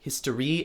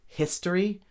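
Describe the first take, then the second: First: The final syllable is stressed. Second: The final syllable is not stressed. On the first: The stress is shifted so the word rhymes. The speaker calls it wrong. "in order to rhyme the re, we have to change the emphasis of the syllables" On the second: This is the everyday way of saying it. The speaker calls it right. "we would say history"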